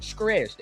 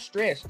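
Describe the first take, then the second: First: The word is said in a dialect-style pronunciation. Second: The word is said in a plain, standard way. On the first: "as some of my family members said" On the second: "not stressed"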